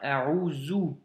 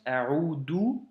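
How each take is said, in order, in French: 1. La consonne du milieu est un son z. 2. La consonne du milieu est un son d simple. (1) "ou un Zei" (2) "avec un Del"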